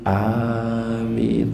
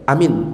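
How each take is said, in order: First: The vowels are said long. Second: The vowels are said short. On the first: It asks for the prayer to be answered. The speaker calls it right. "A-nya panjang, minnya panjang" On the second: It means safe. The speaker calls it wrong. "Kalau cuma pendek"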